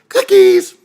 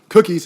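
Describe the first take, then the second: First: The word is yelled in a high, mocking tone. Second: The word is said in a plain, flat way. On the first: The speaker calls it right. "it's a mockery, mocking scream ... There's a a tenor" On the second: The speaker calls it wrong. "It's not like cookies"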